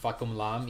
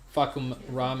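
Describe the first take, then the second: First: The second word begins with an L sound. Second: The second word begins with an R sound. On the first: The speaker calls it right. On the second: The speaker calls it wrong.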